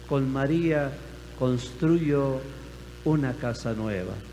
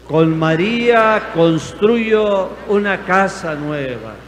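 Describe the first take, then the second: First: The phrase is said at normal loudness. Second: The phrase is said even more loudly.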